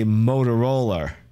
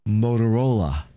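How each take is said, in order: First: The word ends with an added R sound. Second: The word ends on a plain vowel sound. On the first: "Usually I stick an R on the end of things ending in an A. So I would say" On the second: "But it would be more so"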